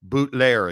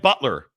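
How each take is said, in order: First: The name is said with a French-style sound. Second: The name is said with a plain English sound. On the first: The speaker calls it right. "pronounce it with French flair" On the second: The speaker calls it wrong. "excuse me"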